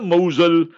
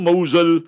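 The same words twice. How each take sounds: First: The name is said with non-Arabic pronunciation. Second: The same.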